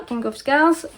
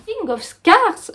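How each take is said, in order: First: Said in the usual way. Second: King of Scars said slowly, pitched up, straining over the English; sounding out King of Scars carefully in English; effortful English title. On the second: Real, not acted. Struggling through the English title King of Scars. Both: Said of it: "je vais y arriver".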